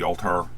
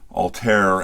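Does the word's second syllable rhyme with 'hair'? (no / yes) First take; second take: no; yes. First: The second syllable does not rhyme with hair. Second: The second syllable rhymes with hair. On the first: The speaker calls it wrong. "I've been told I'm pronouncing it incorrectly" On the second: The speaker calls it right. "as in hair"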